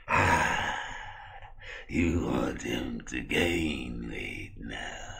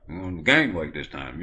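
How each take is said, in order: First: Very slow, low, soft creepy voice; sinister drawn-out doctor drone; Victor. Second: Said in the usual way. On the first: Acted. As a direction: stretch every word out eerily. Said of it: "why do you talk like that".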